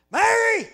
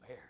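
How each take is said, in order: First: Sudden high, very loud shout; shouted call. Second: Soft, low calling of a name; still small voice. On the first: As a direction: bellow her name as the wrong way to call. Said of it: "reckon Jesus looked there and said". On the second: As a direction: say the name gently, barely audible. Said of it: "small voice". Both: Acted.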